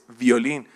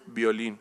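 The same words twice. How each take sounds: First: It starts with a lip-and-teeth v sound. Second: It starts with a lip-closed b sound. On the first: The speaker calls it right. "es violín" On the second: The speaker calls it wrong. "no es violín"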